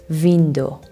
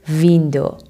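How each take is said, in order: The two takes are said the same way.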